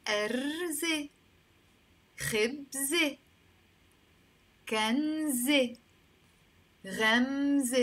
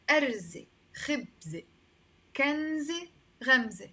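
First: أرز، خبز، كنز، غمز drawn out, each ending in "eh"; teacher sounding out أرز، خبز، كنز، غمز slowly, ending on "eh"; final "e" sound. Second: أرز، خبز، كنز، غمز at normal length, ending in "eh"; final "e" sound. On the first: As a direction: slowly model أرز، خبز، كنز، غمز as "arze, khebze, kanze, ghamze", pausing between words. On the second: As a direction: recap أرز، خبز، كنز، غمز as "arze, khebze, kanze, ghamze". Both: Shown as a demonstration. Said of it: "I'm pronouncing it as a A all the time".

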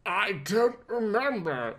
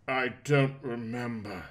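First: Croaked. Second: Said in the usual way. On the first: Acted. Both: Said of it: "Bruce croaked".

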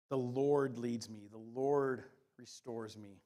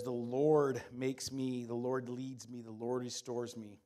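First: Slow, weighty stress on every "Lord". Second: "Lord" stressed each time, slow. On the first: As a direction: lean hard on "Lord" in each clause, slowly. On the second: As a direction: hammer "Lord" in every phrase. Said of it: "It says". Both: Shown as a demonstration.

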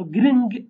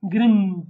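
First: "gring" with both n and g sounded; n and g pronounced. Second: "gring" ending in a held nasal, no hard g. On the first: Teacher showing learners a Kurdish word, "gring" with n and g sounded. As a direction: say "gring" with an audible g closing it. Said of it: "pronounce n and g as well". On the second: Teacher showing learners the other option, "gring" with a nasal ending. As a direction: let "gring" hum out through the nose at the end. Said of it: "you can pronounce it as nasal". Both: Shown as a demonstration.

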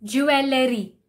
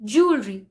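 First: Jewellery as jew-el-ler-y; jewellery in three parts. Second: Jewelry in two beats, jool-ree; jewelry as joolree. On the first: Teacher showing the common jewellery. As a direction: say jewellery with both e's. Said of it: "Many people pronounce it as". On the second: Teacher modelling jewelry. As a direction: say jewelry short. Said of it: "the correct pronunciation is". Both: Shown as a demonstration.

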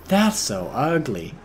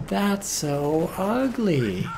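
First: Said in the usual way. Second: High, very slow whiny voice; high drawn-out whine. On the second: Shown as a demonstration. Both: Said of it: "repeated with changed voice".

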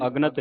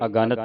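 First: ਅਗਣਤ run together as "agnat"; run-together word. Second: ਅਗਣਤ with the "a" after g sounded, "aganat"; added linking vowel. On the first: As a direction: say ਅਗਣਤ with no long vowel after the g. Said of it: "ਇਹਨੂੰ ਅਗਣਤ ਨਹੀਂ ਪੜਨਾ". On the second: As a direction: open out the middle vowel of ਅਗਣਤ. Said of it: "ਐੜਾ ਸੰਬੰਧਕ ਲਾ ਕੇ". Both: Shown as a demonstration.

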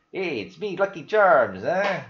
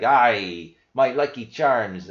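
First: Higher-pitched, badly faked Irish accent; hammed-up Irish cereal mascot greeting. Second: Loud, slow, badly faked Irish-Scottish accent; botched Irish dwarf voice, drawn out and loud; Viking-like Irish accent. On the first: Vlogger jokingly greets viewers as the cereal mascot, badly faked Irish accent. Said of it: "cannot fake an Irish accent". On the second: Vlogger retries the mascot thinking of dwarves, Viking-like Irish accent. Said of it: "that sounds more like a Viking".

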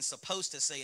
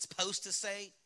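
First: Said in the usual way. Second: "supposed" clipped down to "s'posed"; colloquial "supposed". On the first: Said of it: "It's not even supposed to say". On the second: Shown as a demonstration. Pastor mimicking a doubter, "supposed" said as "s'posed". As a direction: drop the first vowel of "supposed", saying "s'posed". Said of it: "it's supposed to say".

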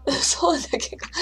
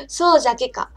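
First: Whispered Hiroshima dialect through giggles; soft laughing whisper in Hiroshima dialect. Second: A light Hiroshima dialect line in a normal voice; plain-voiced Hiroshima dialect. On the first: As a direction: breathe そうじゃけか out in Hiroshima dialect while laughing. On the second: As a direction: toss off そうじゃけか casually in Hiroshima dialect. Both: Shown as a demonstration. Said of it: "広島弁が聞きたいんじゃけの".

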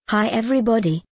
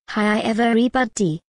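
First: Lightly voiced cartoon doctor greeting; a first, restrained try at a cartoon doctor; Doctor Nick. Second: Doctor Nick. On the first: Showing viewers an impersonation of a cartoon doctor, lightly done. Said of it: "let's get to the impersonation". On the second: Acted. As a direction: stretch the greeting like a cartoon doctor. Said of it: "Let me try that again".

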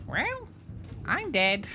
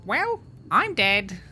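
First: Very high squawking duck voice. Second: Rusty, slow, louder duck voice. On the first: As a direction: hit the duck voice full on. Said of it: "I'm back into it". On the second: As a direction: warm up into a squawky duck voice. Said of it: "you can do it in the duck voice". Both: Acted.

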